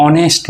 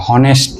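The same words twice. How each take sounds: First: অনেস্ট said with no h sound, starting on the vowel; silent h. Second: হনেস্ট said with a clear h at the start; wrongly sounded h. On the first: Teacher showing students the right way: অনেস্ট said with no h. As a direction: say অনেস্ট as "onest" without the h. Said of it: "অনেস্ট man বলি আমরা, হনেস্ট না". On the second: Teacher showing students the wrong way: হনেস্ট with an h. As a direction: give হনেস্ট a breathy h before the vowel. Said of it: "হনেস্ট না". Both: Shown as a demonstration.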